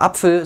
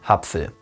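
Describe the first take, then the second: First: The word starts with a throat catch. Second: The word starts with a short h. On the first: "nicht mehr Apfel" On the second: "ein kurzes H zu setzen"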